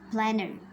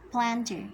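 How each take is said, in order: First: The t after the n is absorbed into it. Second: The t after the n is clearly pronounced. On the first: The speaker calls it right. "but planner" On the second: The speaker calls it wrong. "we cannot say planter"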